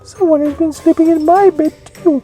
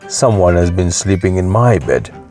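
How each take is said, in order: First: It is said in a middle-sized voice. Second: It is said in a great big voice.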